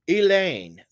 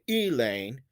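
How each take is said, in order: First: The stress is on the second syllable. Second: The stress is on the first syllable. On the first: The speaker calls it right. "I'm emphasizing the second syllable in the name" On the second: The speaker calls it wrong. "I don't say Elaine"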